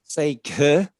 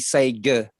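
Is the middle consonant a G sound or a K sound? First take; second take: K sound; G sound. First: The middle consonant is an unvoiced K sound. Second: The middle consonant is a voiced G sound. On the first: The speaker calls it right. "Seka is different sound" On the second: The speaker calls it wrong. "if it was a G sound, it would be Sega"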